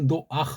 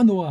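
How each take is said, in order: First: An extra a vowel before the final h sound. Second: It ends on the a vowel with no h. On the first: Foreigners added a vowel they could not pronounce without. "모음 부호 감도 안 되는 걸 집어넣어서" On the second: The final sound was later dropped. "이게 흐자가 없어지고 지금 노아 노아 하잖아요"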